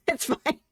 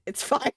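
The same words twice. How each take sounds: First: Laughing through the words. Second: Said in the usual way. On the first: Real, not acted. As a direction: giggle it out, breaking up. Laughing at ugly build.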